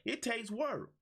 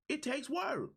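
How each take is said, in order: First: Said in the usual way. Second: "work" hit higher and hard, pitch climbing; stress on work. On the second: Shown as a demonstration. Coach repeating for the audience, "work" pitched higher and stressed. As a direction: lift and punch "work" to drive it home.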